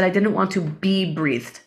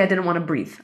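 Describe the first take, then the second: First: "be breathed" picked out slowly and clearly; stress on "be breathed". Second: Said in the usual way. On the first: Shown as a demonstration. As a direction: set "be breathed" apart as the corrected wording. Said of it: "I didn't say I didn't want to breathe". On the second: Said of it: "that's not a mistake".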